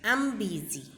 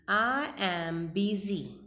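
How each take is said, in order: First: 'I am' is shortened to one syllable 'I'm'. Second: Both words 'I' and 'am' are said fully. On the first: "contracted form is I'm busy" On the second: "I am is a full form"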